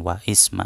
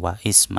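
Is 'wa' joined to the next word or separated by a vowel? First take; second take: separated; separated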